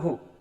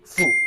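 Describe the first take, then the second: First: The syllable begins with an h sound. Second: The syllable begins with an f sound. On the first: The speaker calls it wrong. "bukan hu" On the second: The speaker calls it right. "melainkan menjadi fu"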